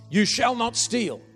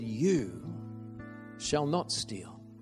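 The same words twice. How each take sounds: First: It sounds like a stern command. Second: It sounds like a gentle promise.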